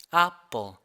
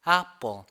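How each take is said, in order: First: The first vowel sits between 'a' and 'e'. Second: The first vowel sits between 'a' and 'e'.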